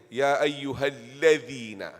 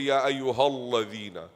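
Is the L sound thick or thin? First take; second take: thin; thick. First: The L sound is light and thin. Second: The L sound is heavy and thick. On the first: The speaker calls it right. "You make it nice thin" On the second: The speaker calls it wrong. "Don't say Ya ayyuhalladhina"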